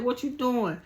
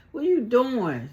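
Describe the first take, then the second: First: Said in the usual way. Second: Louder, high-pitched mock demand; imitated confrontation, raised and emphatic; insistent challenge. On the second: Repeated, louder retold challenge.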